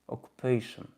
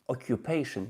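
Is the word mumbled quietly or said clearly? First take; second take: mumbled; clearly. First: It is said quietly with a nearly closed mouth. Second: It is said clearly with an open mouth. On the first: "speak quietly with closed mouth" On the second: "native speaking English can speak occupation"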